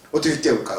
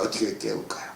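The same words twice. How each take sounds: First: Said in the usual way. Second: 어떻게 깨울까요 whispered, soft and breathless; 어떻게 깨울까요 as a quiet whispered echo; whispered repeat. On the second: Shown as a demonstration. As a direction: drop to a hushed whisper for the repeat. Preacher repeats his question softly.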